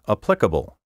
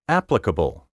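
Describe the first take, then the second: First: The stress is shifted to another syllable. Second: The stress is on the traditional syllable. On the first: The speaker calls it wrong. "so many speakers now misplace the accent" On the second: The speaker calls it right. "my first pronunciation of each word was the proper one"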